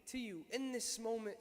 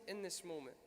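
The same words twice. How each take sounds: First: Said in the usual way. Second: "in this moment" dropped lower and softer; dying slave's prayer echoed softly; fading echo. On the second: Retold or imitated. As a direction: let "in this moment" fall away softly, lower.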